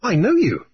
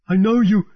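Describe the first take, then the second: First: Level, knowing captain's voice; a touch higher, steady recognition; Grief speaking. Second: High eager recognition; a frantic sailor seizing on a face he knows; high, urgent cry of recognition; Harelip recognizing. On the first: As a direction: calmly place the man. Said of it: "Grief said". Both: A narrator's reading.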